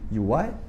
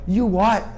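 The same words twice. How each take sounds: First: It is said in a soft, friendly tone. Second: It is said in a hostile, confrontational tone. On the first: The speaker simply did not understand. The speaker calls it right. "com essa entonação mais boazinha" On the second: The speaker is picking a fight. The speaker calls it wrong. "Não"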